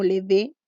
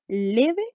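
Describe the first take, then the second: First: "leve" pushed onto the end, as le-VÉ; deliberately misplaced stress, "leve" said le-VÉ; stress on last syllable. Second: "leve" drawn out on LE, as LÉ-ve; stress on first syllable. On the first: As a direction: hit the final VE of "leve", rising like a question. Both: Shown as a demonstration. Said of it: "la sílaba que suena más fuerte".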